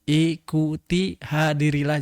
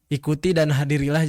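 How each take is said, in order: First: The phrase is read slowly and carefully. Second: The phrase is read quickly in one go. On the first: The text is checked closely for typos. The speaker calls it right. "jadi slow gitu cara bacanya" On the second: The text is only skimmed. The speaker calls it wrong. "bukan misalnya kayak gini, ... jangan gitu"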